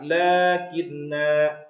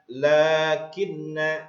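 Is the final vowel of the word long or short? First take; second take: long; short. First: The final vowel is held long. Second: The final vowel is cut short. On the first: The reader stops at this word. "itu ada panjang juga nanya. Kalau diwakafkan maka lakinna seperti itu" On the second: The reader runs on into the next words. "kalau di kasar, ... diwasalkan, maka dia pendek"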